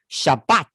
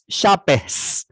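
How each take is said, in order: First: The word ends with a t sound. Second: The word ends with an s sound. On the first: "南方口音，这叫做以色列的口音……它发一个重音" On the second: "北方口音……它发s"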